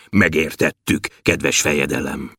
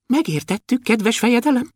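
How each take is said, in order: First: Deep, low dwarf voice; thick voice. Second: High, tiny dwarf voice; thin voice. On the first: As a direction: answer the ruler low and thick. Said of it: "mondta Bobolysza vastagon". (vastag, mély törpehang) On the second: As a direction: answer the ruler in a thin pipe. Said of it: "mondta vékonyan Kökölyszi". (vékony, magas törpehang) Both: A narrator's reading.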